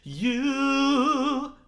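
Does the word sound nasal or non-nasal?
nasal. The word is placed forward through the nose. "Right through the nose"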